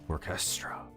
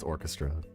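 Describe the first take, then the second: First: The middle 'eh' sound is emphasized. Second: The middle 'eh' sound is said plainly. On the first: "Put a little more emphasis on the E H sound" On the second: "I know it's orchestra"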